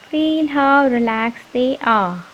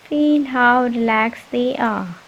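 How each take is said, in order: Both takes have the same delivery.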